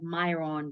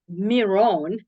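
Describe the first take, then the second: First: The first vowel is an 'eye' sound. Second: The first vowel is not an 'eye' sound. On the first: The speaker calls it wrong. "I always said Myron because we live in U S and then you know how we pronounce I" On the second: The speaker calls it right. "I didn't know it was pronounced uh, that way"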